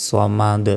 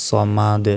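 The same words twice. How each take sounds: Both takes have the same delivery.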